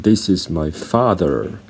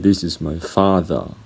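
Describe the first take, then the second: First: The final R in father is pronounced. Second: The final R in father is silent. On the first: "an American would say" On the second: "British people would say"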